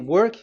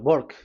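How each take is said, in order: First: The word begins with a W sound. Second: The word begins with a B sound. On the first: "if you say work" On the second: "W is pronounced as B. ... they say uh, work"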